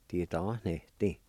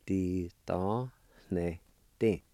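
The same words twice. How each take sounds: First: Said in the usual way. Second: "Ti ta ne ti" slowly, syllables held apart; sounded out. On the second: Shown as a demonstration. Teacher repeating gifts for learners, slowly sounded out. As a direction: draw out and separate "Ti ta ne ti". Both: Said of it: "It's pronounced like this".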